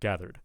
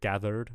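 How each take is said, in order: First: The final R sound is light and natural. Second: The final R sound is overdone and too heavy. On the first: The speaker calls it right. "instead of gathered" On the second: The speaker calls it wrong. "I'm hearing gathered"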